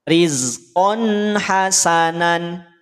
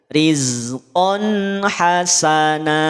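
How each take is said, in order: First: The last word ends with an n sound. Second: The last word ends in a lengthened vowel. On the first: The speaker calls it wrong. "nunnya tidak dibaca nan" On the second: The speaker calls it right. "Dipanjangkan dua harokat. Dan tanwinnya jadi hilang"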